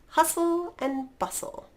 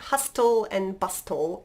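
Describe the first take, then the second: First: The T sound is silent in both words. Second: A T sound is pronounced in both words. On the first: The speaker calls it right. "There's no T in there" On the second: The speaker calls it wrong. "It's not hustle and bustle"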